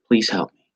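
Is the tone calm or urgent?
calm. It is said in a plain, calm tone.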